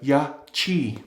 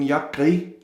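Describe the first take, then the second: First: The middle consonant is a 'ch' sound. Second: The middle consonant is a throaty 'k' sound. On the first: The speaker calls it right. "it should be pronounced like the, this C H in the word chair" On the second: The speaker calls it wrong. "been calling them Yakri for uh, many videos because the Q is pronounced Gra in Greenlandic"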